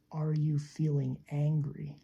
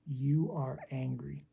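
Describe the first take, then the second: First: Open, relaxed question. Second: Commanding. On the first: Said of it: "So much easier". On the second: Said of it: "Command, direct, telling a person". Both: Shown as a demonstration.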